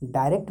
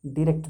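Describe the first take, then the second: First: डायरेक्ट said as "daa-rekt" with a long open first vowel; British pronunciation. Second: डायरेक्ट said as "dee-rekt" with a short ee; American pronunciation. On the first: Teacher shows students the British डायरेक्ट, "daa-rekt". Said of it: "डायरेक्ट British हो गया". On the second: Teacher shows students the American डायरेक्ट, "dee-rekt". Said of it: "डायरेक्ट American हो गया". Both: Shown as a demonstration.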